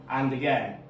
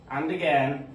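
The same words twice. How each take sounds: The two takes are said the same way.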